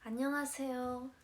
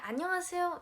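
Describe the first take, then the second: First: The greeting sounds shy and reserved. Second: The greeting sounds bright and bold.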